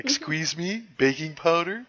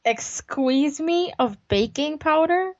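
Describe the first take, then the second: First: High, rising double question; incredulous movie-quote imitation; Wayne's World quote. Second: Slow, high, questioning catchphrase; mock-incredulous question, pitched up; Wayne's World quote. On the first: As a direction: toss it out as a mock-baffled catchphrase. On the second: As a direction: draw it out as a baffled movie quote. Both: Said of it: "That was a Wayne's World thing".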